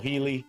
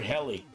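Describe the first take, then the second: First: The first syllable sounds like 'heal'. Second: The first syllable sounds like 'hell'. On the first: "I know I'm saying it right" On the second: "as a kid, it was the only time that I got to say hell"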